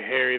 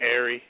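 First: The word begins with an H sound. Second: The word begins without an H sound. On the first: "They don't say Harry" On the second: "they drop their H's. they say Airy"

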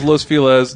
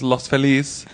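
First: The name has an everyday anglicized pronunciation. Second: The name has a Spanish-style pronunciation. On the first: This is how most locals say it. "Everyone says Los Feliz" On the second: This is the technically correct form. "The correct way of saying it is Los Feliz"

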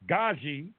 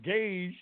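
First: It is said as two syllables. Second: It is said as one syllable. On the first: The speaker calls it right. "it's pronounced Gaji" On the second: The speaker calls it wrong. "But I look like Gage to me, but it's not pronounced that way"

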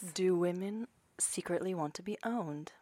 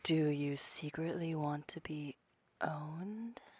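First: It is said at normal speed. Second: It is said slowly.

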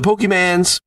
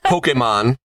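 First: The name ends with a 'mans' sound. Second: The name ends with a 'mon' sound. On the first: The speaker calls it wrong. "they get real mad when I say Pokemans" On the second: The speaker calls it right. "It is pronounced Pokemon"

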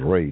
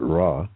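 First: The vowel sounds like 'ay' in day. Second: The vowel sounds like 'ah' in father. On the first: The speaker calls it right. "the pronunciation is ray" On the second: The speaker calls it wrong. "not ra, which my educated daughter tried to convince me of"

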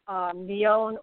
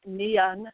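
First: The name is said as read in English. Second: The name is said with Irish pronunciation. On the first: "the way it reads kind of in English" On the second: "according to the Irish"

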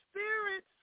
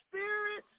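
Both takes have the same delivery.

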